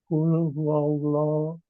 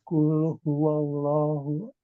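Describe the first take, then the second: The two takes are said the same way.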